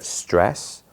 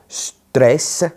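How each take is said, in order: First: It is said with an English accent. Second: It is said with an Italian accent. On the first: "instead of" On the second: "they take on a distinctly Italian sound"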